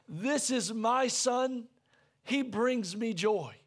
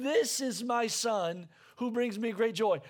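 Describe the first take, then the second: First: Each word laid down slowly and gently; slow, tender, savouring every word; slow tender declaration. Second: Said in the usual way. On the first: Retold or imitated. Preacher voicing the Father's words over his Son, slow and tender. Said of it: "He just says". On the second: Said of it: "the Father's saying".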